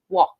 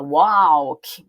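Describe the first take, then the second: First: The L is not pronounced at all. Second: The L is pronounced in the word. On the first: The speaker calls it right. "mas ele é mudo" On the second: The speaker calls it wrong. "vê o L e dá vontade de falar ele"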